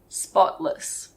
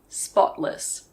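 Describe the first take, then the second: First: The middle T is very soft and light. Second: The middle T is very soft and light.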